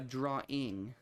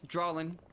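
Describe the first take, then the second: First: No L sound is added before the ending. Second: An L sound is added before the ending. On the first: The speaker calls it right. "I had to train myself to actually say uh" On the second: The speaker calls it wrong. "So I used to say drawling like that"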